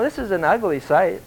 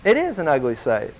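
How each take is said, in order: First: Said in the usual way. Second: "is" stressed, falling away after it; emphatic "is", rest of the line dropping. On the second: Real, not acted. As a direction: lean on "is" to confirm it. Repeats the remark, stressing the verb.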